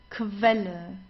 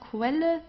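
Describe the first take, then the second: First: It begins with a kv sound. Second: It begins with a kw sound. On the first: The speaker calls it right. "you pronounce it as Kv" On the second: The speaker calls it wrong. "it's not Quelle"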